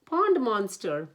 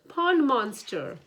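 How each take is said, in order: First: Loud slow alarm; alarmed cry. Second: High, loud slow alarm; higher alarmed cry. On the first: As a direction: cry the warning out slowly. Panicked alarm, first call. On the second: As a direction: climb higher in panic on the repeat. Panicked alarm, higher repeat. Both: A narrator's reading.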